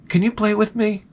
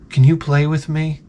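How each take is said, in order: First: Put-on higher, small angelic child voice; sweet little boy. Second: Lightly voiced angelic child; sweet little boy. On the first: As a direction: imitate a sweet child, pitched well up. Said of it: "he said it in such a sweet way". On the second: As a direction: imitate a cute little boy asking gently. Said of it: "in the, in the sweetest, most, like, angelic voice".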